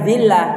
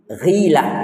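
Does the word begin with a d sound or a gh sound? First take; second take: d sound; gh sound. First: The word begins with a plain d sound. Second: The word begins with a throaty gh sound. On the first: The speaker calls it wrong. "Bukan dilah" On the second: The speaker calls it right. "pakai ghin"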